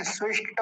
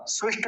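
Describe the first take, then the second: First: स्विष्ट ending in a fully sounded "ta"; careful "svishta", last syllable complete; full final ta. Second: स्विष्ट cut off at "svisht", no final vowel; quick "svisht" without the closing a; clipped wrong ending. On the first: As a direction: give the ट of स्विष्ट its vowel. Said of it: "क्योंकि ट पूरा है". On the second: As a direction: stop स्विष्ट on the bare ट. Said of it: "स्विष्ट नहीं बोलेंगे". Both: Shown as a demonstration.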